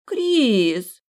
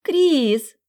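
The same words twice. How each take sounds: First: Higher, louder sulky whine of the name; rejected girl pouting at Kris, sulky whine. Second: Very high, much louder squeal of the name; a girl squealing the name in delight; girl spotting Kris at the ball, thin squeal; thin girlish voice. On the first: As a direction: pout and say the name reproachfully. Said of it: "надула губы бантиком и насупила брови". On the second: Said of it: "тонюсенький женский голос". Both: Acted.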